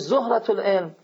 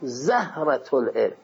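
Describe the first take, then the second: First: The first vowel is a 'u' sound. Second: The first vowel is an 'a' sound. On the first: "به معنی به ذمه بخونی" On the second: "اگر فتحه بدی"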